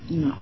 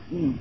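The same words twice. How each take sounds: The two takes are said the same way.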